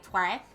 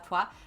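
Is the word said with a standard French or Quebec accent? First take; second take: Quebec; standard French. First: It is said with a Quebec French accent. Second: It is said with a standard French accent.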